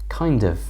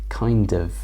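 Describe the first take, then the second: The two takes are said the same way.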